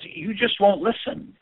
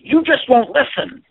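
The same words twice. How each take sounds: First: It is said quietly, with low energy. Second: It is said loudly, with high energy. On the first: The person is mildly frustrated. "I'm first at the lower energy level" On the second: The person is strongly angry. "if they say it louder"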